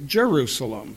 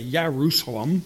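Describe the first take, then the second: First: The word begins with a J sound. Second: The word begins with a Y sound. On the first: The speaker calls it right. "We say Jerusalem" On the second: The speaker calls it wrong. "We don't say Yerusalem"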